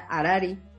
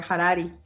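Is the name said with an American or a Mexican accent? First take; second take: Mexican; American. First: The name is said with a Mexican Spanish accent. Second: The name is said with an American English accent. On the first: "Si lo dices como mexicano" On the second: "si lo dices como si fueras gringo"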